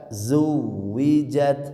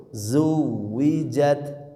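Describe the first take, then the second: Both takes have the same delivery.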